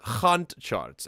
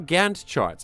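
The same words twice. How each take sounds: First: Gantt is said with a Dutch-style pronunciation. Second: Gantt is said with a plain English pronunciation. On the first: "as the Dutch or Afrikaans would pronounce it" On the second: "Am I pronouncing it correctly?"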